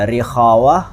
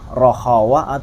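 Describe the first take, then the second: First: The first vowel is an i sound. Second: The first vowel is an o sound. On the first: "lebih cocok atau lebih pas itu sebetulnya rikhawa" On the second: "nggak salah sih rohawa"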